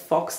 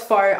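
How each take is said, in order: First: The word ends with a 'ks' sound. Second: The word ends on a plain vowel sound. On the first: The speaker calls it wrong. "I pronounced it as Fox Lashes or something like that" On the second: The speaker calls it right. "But I know it's faux"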